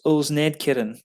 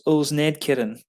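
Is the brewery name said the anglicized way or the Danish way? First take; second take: anglicized; anglicized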